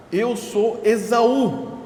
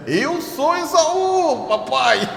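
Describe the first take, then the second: First: Said in the usual way. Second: High, slow sly put-on voice, cracking into a laugh; Jacob faking being Esaú. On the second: Jacob lies to blind Isaac, sly high voice. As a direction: play the cunning son lying to his blind father. Jacob deceiving his father.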